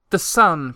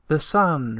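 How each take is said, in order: First: "sun" cried high and urgent. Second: Echo repeating. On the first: Moomintroll cries out to Tutiki about the missing sun. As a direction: Moomintroll blurting out his worry. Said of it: "cried Moomintroll". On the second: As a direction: throw it back like a distant echo. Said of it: "repeated the echo". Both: A narrator's reading.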